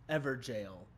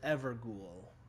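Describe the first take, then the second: First: The word ends with a sound like 'jail'. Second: The word ends with a sound like 'ghoul'. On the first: The speaker calls it right. "that is the correct way to say it" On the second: The speaker calls it wrong. "the terrible way I mispronounce it"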